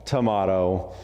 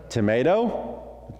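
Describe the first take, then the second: First: Tomato with a broad AH in the middle; contrasting pronunciation. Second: Slow Tomato with a long AY, rising; Tomato with MAY in the middle, tune going up; American pronunciation. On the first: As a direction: say tomato as tuh-MAH-toh. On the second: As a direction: say Tomato as tuh-MAY-doh, drawn out. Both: Shown as a demonstration. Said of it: "if I say tomato and you say tomato".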